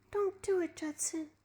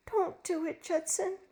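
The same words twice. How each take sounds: First: High, soft, breathless plea; gasping plea. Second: High pleading appeal; begging. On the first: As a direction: gasp it out in fear. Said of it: "she gasped". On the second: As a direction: beg him to stop. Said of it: "she begged". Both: A narrator's reading.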